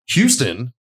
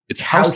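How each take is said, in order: First: It is pronounced the way Texans say the city. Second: It is pronounced the way New Yorkers say the street. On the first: "they don't pronounce it like that" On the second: "It's Houston is how they pronounce it back there"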